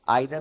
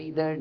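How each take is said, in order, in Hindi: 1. पहला स्वर 'eye' जैसा सुनाई देता है। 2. पहला स्वर 'ee' जैसा सुनाई देता है।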